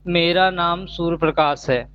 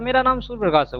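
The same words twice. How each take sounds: First: The words are stretched out and drawn long. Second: The words are said at normal, short length. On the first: "UP के तरीके से बताऊंगा ... मैंने शब्दों को कितना देर तक खींचा" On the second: "सामान्य हिंदी वाला ... ऐसे बताएगा"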